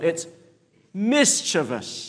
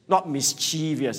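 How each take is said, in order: First: The stress falls on the first syllable. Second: The stress falls on a later syllable. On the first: The speaker calls it right. "the emphasis is on the first syllable" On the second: The speaker calls it wrong.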